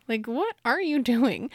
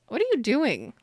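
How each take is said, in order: First: "what are you doing" drawn out word by word; slow down and lean on each word of "what are you doing"; emphatic repeated question. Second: Said in the usual way. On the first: Retold or imitated. Character's question repeated slowly, emphatically.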